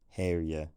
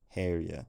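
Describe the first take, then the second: No difference in how they are said.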